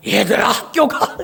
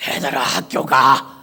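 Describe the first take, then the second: First: Slow straining call with almost no voice; voiceless strained call; hoarse voice. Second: Put-on lower, slow rasping call to the kids; hoarse voice after a night of prayer; hoarse lost voice. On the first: Retold or imitated. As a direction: push out a voice that won't come. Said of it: "목소리가 안 나오는 거야". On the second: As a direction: croak it out with a ruined voice. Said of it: "목소리가 이렇게 된 거야".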